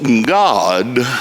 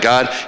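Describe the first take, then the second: First: The word is stretched over three or four syllables. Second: The word is said as one short syllable. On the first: Someone else said it this way. "he would say it with like three or four syllables" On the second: This is the speaker's own way of saying it. "like I do"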